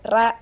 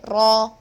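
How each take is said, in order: First: The syllable sounds light, as in English. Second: The syllable sounds heavy and deep. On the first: The speaker calls it wrong. "It's not like rabbit. When you say rabbit, it's not heavy" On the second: The speaker calls it right. "but in Arabic, we should say raw"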